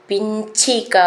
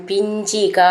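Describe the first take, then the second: The two takes are said the same way.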